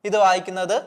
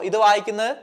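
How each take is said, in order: The two takes are said the same way.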